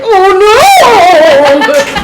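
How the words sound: It is said in an intense, dramatic way.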